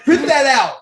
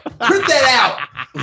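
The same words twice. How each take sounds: First: Loud, high, through a laugh; laughing repeat. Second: Louder and higher; excited demand. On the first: Retelling to the friends, a laughing loud repeat. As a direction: say it again while cracking up. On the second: To his cousin with the test results, an excited loud demand. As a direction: bark the order gleefully. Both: Retold or imitated.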